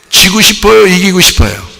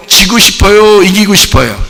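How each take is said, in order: Both takes have the same delivery.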